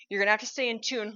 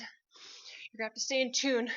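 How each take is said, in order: First: Said in the usual way. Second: "stay" drawn out long, slower and softer; stress on STAY. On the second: Shown as a demonstration. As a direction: lean on "stay", stretch it slowly.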